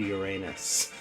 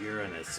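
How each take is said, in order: First: It is pronounced the crude, jokey way. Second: It is pronounced the polite, mature way. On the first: It makes a childish joke. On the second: It avoids the childish joke.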